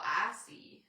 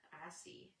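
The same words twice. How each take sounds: First: Said in the usual way. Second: Unvoiced whispered echo. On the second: Echoing herself to viewers in a whisper. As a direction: drop to a hushed whisper.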